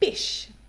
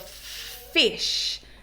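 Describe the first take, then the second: First: It starts with the lips stopping a b sound. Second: It starts with air flowing through an f sound. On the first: The speaker calls it wrong. "they will stop it with something called a stop, which is a b sound" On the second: The speaker calls it right. "instead of saying a f with the airflow coming through"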